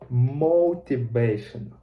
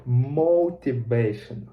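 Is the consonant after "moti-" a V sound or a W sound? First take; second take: V; V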